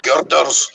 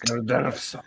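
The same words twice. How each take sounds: First: Girders with a rolled Scottish r. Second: Girders echoed quietly back; a friend softly repeating Girders on request. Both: Shown as a demonstration. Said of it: "Say it".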